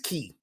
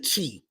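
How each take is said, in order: First: The word begins with a k sound. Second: The word begins with a ch sound. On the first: This is the proper original way of saying it. The speaker calls it right. "the proper pronunciation of it is Key" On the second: This is the usual everyday way of saying it. The speaker calls it wrong. "we normally say Chi"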